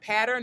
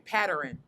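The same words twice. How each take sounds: First: It is said with the standard pronunciation. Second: It is said with a local regional pronunciation. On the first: This is how the word is usually said. "instead of saying" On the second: This is how people in one area say it. "some people up there ... they say"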